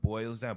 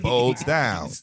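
First: The first word has a clear oi vowel. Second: The first word has an oh vowel. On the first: "if you say it faster and if you cycle it enough times" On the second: "That bowls down"

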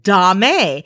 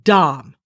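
First: The word is said with a long 'ay' vowel. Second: The word is said with a short 'ah' vowel. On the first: The speaker calls it wrong. "they mispronounce it dame" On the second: The speaker calls it right. "It is pronounced dom"

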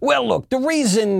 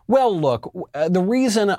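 First: It is said in an imitated, put-on voice. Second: It is said in the speaker's natural voice.

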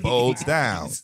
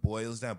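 First: The first word is blurred into 'bowls'. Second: The first word keeps its full 'oi' vowel.

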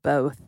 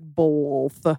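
First: No L sound is heard before the th. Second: An extra L sound is added before the th. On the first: The speaker calls it right. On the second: The speaker calls it wrong.

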